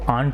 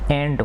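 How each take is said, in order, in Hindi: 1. इस स्वर की ध्वनि लंबी, खुली 'aa' है। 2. इस स्वर की ध्वनि छोटी, आगे की 'e' है। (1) "हिंदी मीडियम वाले बच्चे होते हैं वो इस एंट को आंट बोलते हैं" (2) "सही शुद्ध उच्चारण इसका क्या होता है, एंट होता है"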